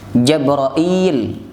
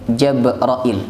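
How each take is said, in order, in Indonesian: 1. Vokal suku kata terakhir panjang. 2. Vokal suku kata terakhir pendek. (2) "ilnya pendek"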